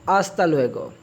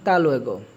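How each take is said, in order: First: Every syllable of the phrase is pronounced. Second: The first word is cut to one syllable.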